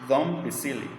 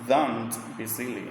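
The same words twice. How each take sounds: First: It is said fast with the nt becoming m. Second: It is said slowly with the t kept. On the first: "when people speak faster, they are going to pronounce like this" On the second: "it's pronounced "don't be silly" uh, when when we speak slowly"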